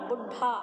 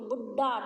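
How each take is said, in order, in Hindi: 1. बीच का व्यंजन महाप्राण है, साँस के साथ। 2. बीच का व्यंजन अल्पप्राण है, बिना साँस के।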